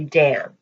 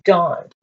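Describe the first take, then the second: First: The vowel is like 'a' in 'cat'. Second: The vowel is an open 'ah' sound. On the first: This is how most people say the name. The speaker calls it wrong. "people will say Dan" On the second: This is the original form of the name. The speaker calls it right. "It's dawned"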